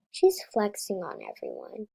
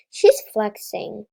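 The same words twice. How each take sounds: First: Said in the usual way. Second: Louder, slow, indignant accusation. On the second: Real, not acted. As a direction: call her out, drawn out. Indignant at player showing off.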